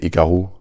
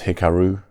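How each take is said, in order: First: The name is said with a French accent. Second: The name is said with an English accent. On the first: "In French, I would say Hikaru" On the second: "I guess it's Hikaru if your native language is English"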